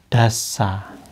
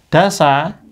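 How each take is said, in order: First: The s sound is held long and doubled. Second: The s sound is short and single. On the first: "Kalau kasih tasdid" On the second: "dasa dulu"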